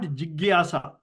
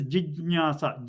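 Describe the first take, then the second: First: The middle consonant is a hard g sound. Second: The middle consonant is a soft j sound. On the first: The speaker calls it wrong. "it is not jigyasa" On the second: The speaker calls it right. "It is jijnyasa"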